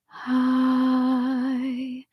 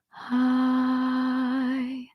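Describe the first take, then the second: First: The vowel starts with a soft puff of air. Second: The same.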